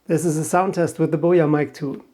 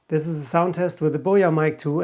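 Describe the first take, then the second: First: Voice boost is on, in a quiet room. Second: A strong low cut that thins the voice. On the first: "This time I enabled voice boost" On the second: "I set it to one hundred fifty hertz"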